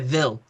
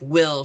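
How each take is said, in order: First: The word begins without a W sound. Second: The word begins with a clear W sound. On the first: The speaker calls it wrong. "my grandma couldn't say a W" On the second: The speaker calls it right. "instead of like will"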